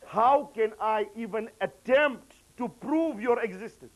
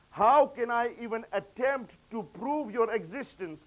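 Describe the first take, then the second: No difference in how they are said.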